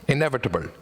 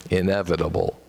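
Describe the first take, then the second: First: Austrian accent. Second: Midwestern accent. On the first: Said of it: "fun to say in accent". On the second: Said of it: "than the Midwestern English". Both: Shown as a demonstration.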